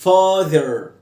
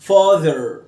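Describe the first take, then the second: Both takes have the same delivery.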